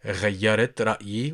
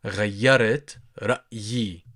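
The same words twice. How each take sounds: First: غيرت رأيي run together fast; quick natural take. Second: رأيي with a rolled tongue R. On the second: Teacher showing learners the rolled R in رأيي. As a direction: trill the R in رأيي. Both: Shown as a demonstration. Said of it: "you roll your tongue".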